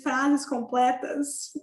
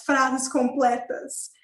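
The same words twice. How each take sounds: First: Drawn out slowly, "frases" rising at the end; slow emphasis. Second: Drawn out slowly, stressing "frases"; slow emphasis. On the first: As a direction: stretch "frases completas" and lift the end. Repeats point about full sentences. (ênfase lenta em "frases completas", subindo no fim) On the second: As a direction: stretch "frases completas" word by word. Emphasizing full sentences in German. (ênfase lenta em "frases completas") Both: Real, not acted.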